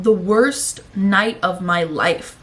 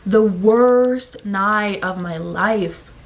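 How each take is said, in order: First: Said in the usual way. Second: "worst" stretched long and hit hard, slow throughout; emphatic stress. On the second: Real, not acted. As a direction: drag out "worst" so they hear it. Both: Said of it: "are you guys hearing that?".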